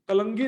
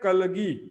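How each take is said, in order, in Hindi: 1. इसमें g से पहले नासिक्य n ध्वनि है। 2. इसमें g से पहले कोई नासिक्य ध्वनि नहीं है। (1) "कलंगी लिखा है" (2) "शुद्ध उच्चारण है कलगी"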